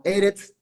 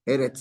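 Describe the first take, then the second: First: Eretz said as ERE-tz, first syllable stressed, rising. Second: Said in the usual way. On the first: Shown as a demonstration. Teacher modelling Eretz for students, stressing the first syllable. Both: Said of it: "acento en la primera".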